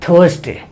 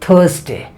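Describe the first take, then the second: The two takes are said the same way.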